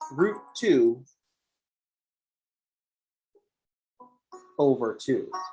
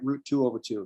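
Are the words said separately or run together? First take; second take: separately; run together. First: The words are said separately and clearly. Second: The words are mumbled together like one word.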